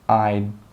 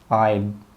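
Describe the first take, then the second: No difference in how they are said.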